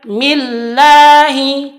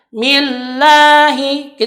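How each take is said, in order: Both takes have the same delivery.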